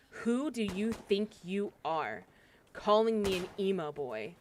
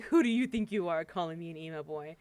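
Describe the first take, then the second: First: Slow, measured mock indignation; understated retold anger, drawn out; pissed off, retold. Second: Lightly tossed-off mock challenge; joking, retold. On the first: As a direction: retell his offence, spacing the words out. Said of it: "He was very pissed off at me". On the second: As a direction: say it as if it were only a joke. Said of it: "he was joking at first".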